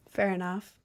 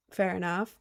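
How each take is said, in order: Both takes have the same delivery.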